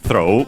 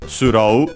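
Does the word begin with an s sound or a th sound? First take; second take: th sound; s sound. First: It begins with a th sound. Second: It begins with an s sound and long o.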